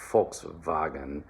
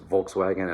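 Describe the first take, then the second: First: It begins with an unvoiced F sound. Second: It begins with a voiced V sound. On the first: "in German, it's Volkswagen. All right, so that V becomes an F, unvoiced" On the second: "In English, it's Volkswagen"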